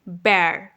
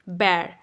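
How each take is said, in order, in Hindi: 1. स्वर की आवाज़ air के खुले e जैसी है। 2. स्वर की आवाज़ air के खुले e जैसी है।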